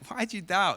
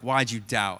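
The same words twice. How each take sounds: First: It is said in a warm, smiling tone. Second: It is said in a harsh, scolding tone.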